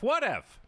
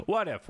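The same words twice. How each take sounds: First: What if, pitched up high; higher teasing repeat. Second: Said in the usual way. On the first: Shown as a demonstration.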